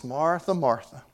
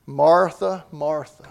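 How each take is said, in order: First: Soft, compassionate call of her name; Jesus gently calling Martha by name, compassionate. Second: Said in the usual way. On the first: Retold or imitated. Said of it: "Jesus is expressing compassion when he says this". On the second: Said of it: "this is what she heard".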